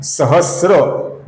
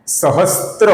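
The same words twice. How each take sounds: First: सहस्र with a plain स्र, no त; correct pronunciation. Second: सहस्त्र with an added त, the wrong way; wrong pronunciation. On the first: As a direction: say सहस्र as स plus र, no t sound. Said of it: "ये सही उच्चारण है". (सही उच्चारण सहस्र, बिना त के) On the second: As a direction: say सहस्त्र with a t sound inside the cluster. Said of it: "ये गलत उच्चारण है". (गलत उच्चारण सहस्त्र, स्त्र के साथ) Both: Shown as a demonstration.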